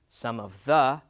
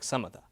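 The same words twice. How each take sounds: First: Each word is said fully and separately. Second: The words are reduced and run together.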